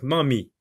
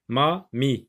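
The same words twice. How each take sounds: First: Said in the usual way. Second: "ma mi" split into two separate syllables; "ma mi" broken up for a beginning reader. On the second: Shown as a demonstration. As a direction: say "ma", pause, then "mi". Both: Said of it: "à partir de ces deux syllabes".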